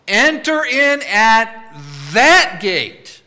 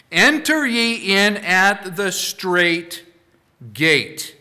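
First: Slow, loud, higher command with THAT hammered; louder, forceful repeat of the command. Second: Slow, weighty decree with each word set apart; measured, emphatic scripture command; solemn command. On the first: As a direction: call it out like a divine order. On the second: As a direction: lay it down slowly like a divine order. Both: Acted. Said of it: "with all the force of the divine nature".

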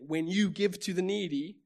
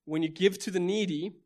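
First: You picked out, pitched up; stress on you. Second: Said in the usual way. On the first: Shown as a demonstration. Preacher rereading the verse for each individual, stress on you. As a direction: put the weight on the word you.

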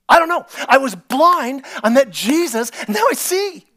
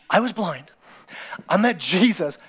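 First: High, loud, exuberant; excited testimony. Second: Said in the usual way. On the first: Acted. Healed blind man answering questions, loud and high. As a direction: blurt it out gleefully.

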